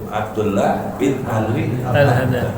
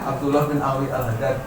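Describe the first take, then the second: First: The name is said crisply with every sound. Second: The name is slurred with sounds dropped. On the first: The speaker often says this name. The speaker calls it right. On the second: The speaker rarely says this name. The speaker calls it wrong.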